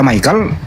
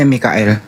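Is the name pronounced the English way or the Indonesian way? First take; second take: English; Indonesian. First: The name is pronounced the English way, like 'Mykel'. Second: The name is pronounced the Indonesian way, 'Mi-ka-el'. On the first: "orang Inggris membaca Michael" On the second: "orang Indonesia biasanya Mikael"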